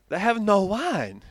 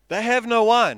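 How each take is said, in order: First: It is said in a put-on Jewish manner. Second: It is read in the speaker's plain voice.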